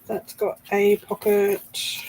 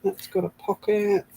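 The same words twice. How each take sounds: First: "a" drawn out, whole line slow; slow emphatic repeat. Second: Said in the usual way. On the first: Shown as a demonstration. Showing the craft viewers, slow stress on "a". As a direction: slowly say "That's got a pocket", leaning on "a".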